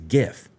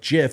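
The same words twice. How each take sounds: First: The word starts with a hard G sound. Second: The word starts with a soft J sound. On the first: "G I F is GIF" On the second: "GIF is J I F like the peanut butter"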